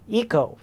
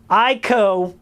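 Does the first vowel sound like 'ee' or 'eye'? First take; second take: ee; eye. First: The first vowel sounds like 'ee'. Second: The first vowel sounds like 'eye'. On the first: "it's like Eco" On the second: "with the hard I"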